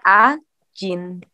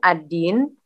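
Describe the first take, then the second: First: The middle consonant is a J sound. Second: The middle consonant is a plain D sound. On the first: "jadinya ajin" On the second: "D di pronounce-nya J"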